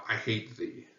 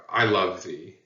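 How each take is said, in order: First: A softer, scornful line; mild contempt, not shouted. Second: Tender, loving delivery; a light touch of affection; affectionate. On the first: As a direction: spit out quiet disdain. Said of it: "or contempt". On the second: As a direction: say it as a fond declaration. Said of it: "I'm using it very affectionately". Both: Shown as a demonstration.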